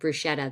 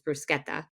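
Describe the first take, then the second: First: It is said with an American pronunciation. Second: It is said with an Italian pronunciation. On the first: The speaker calls it wrong. "if you order like bruschetta there, they'll just laugh in your face" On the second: The speaker calls it right. "because it's bruschetta"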